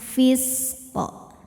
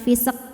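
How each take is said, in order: First: The s hisses smoothly, then the q bounces. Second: The s is cut short with a bounce. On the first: The speaker calls it right. "fis dialirkan, baru qaf pantulannya jelas" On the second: The speaker calls it wrong. "ini jangan dipantul, bacanya jangan fisq"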